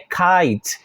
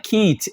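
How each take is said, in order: First: The word is said like 'kite'. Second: The word is said like 'kit'. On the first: The speaker calls it right. "é kite" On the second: The speaker calls it wrong. "aqui não é kit"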